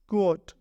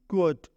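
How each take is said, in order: No difference in how they are said.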